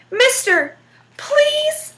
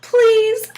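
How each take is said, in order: First: High, whiny begging plea; devil pleading. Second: A mock, sing-song "Please" rising up. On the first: Acted. The trapped devil begs Jack to let him go, high and whiny. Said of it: "Please, so pretty". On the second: Jack mocks the devil's begging with a rising, sing-song "Please". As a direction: Jack parrots the devil's whine to tease him. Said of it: "and he laughed till he didn't have another left".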